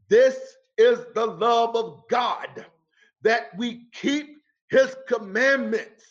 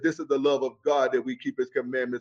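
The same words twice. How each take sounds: First: The sentence is read slowly. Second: The sentence is read quickly. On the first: The speaker calls it right. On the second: The speaker calls it wrong.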